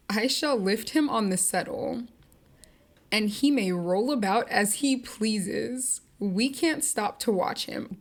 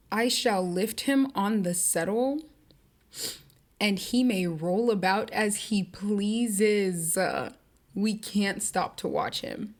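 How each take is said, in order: First: Cold dismissive Nellie. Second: Slow, deadpan reread; slow deadpan dismissal; cold Nellie, reread. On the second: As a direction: savour how heartless it sounds. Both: Retold or imitated. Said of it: "Why would you say that like that?".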